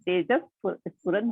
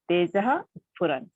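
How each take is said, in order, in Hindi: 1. पहला शब्द एक साफ़ s की आवाज़ से खत्म होता है। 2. पहला शब्द एक साँस वाले h की आवाज़ से खत्म होता है।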